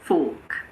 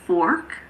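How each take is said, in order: First: The R sound is silent. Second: The R sound is clearly pronounced. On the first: "but in British English, it's fork" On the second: "In American English, it's fork"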